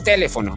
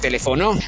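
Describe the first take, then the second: First: The stress is on the first syllable. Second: The stress is on the fourth syllable. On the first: "Si llevara la fuerza de voz en T" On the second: "Y si llevara la fuerza de voz en no"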